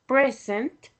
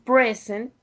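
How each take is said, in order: First: The stress falls where the noun has it. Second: The stress falls where the noun has it.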